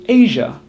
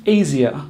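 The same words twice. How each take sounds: First: "Asia" as AY-zhuh, two syllables; correct Asia. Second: "Asia" as AY-zee-uh, three syllables; mispronounced Asia. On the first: Teacher modelling the correct word, two syllables. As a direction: say "Asia" with a ZH sound. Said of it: "So we say Asia". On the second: Teacher showing learners' mistake, three syllables. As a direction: say "Asia" wrongly with a ZEE-uh ending. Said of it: "not Asia". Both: Shown as a demonstration.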